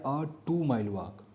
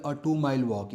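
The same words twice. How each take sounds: First: A two mile walk said very slowly, word by word; slow and spelled out. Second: Said in the usual way. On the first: Shown as a demonstration. Teacher slowly repeats the example phrase for students. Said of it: "देखो अ लग गया". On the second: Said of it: "example ले लो".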